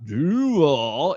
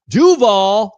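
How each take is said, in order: First: Slow, drawn-out "Duval" at normal volume; long, dragged "Duval"; wrong Duval. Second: Loud, higher-pitched "Duval"; belted-out "Duval"; correct Duval shout. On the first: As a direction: stretch "Duval" out lazily, without the punch. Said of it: "It's not Duval". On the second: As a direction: punch out "Duval" as a loud chant. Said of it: "that's how you say it". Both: Shown as a demonstration.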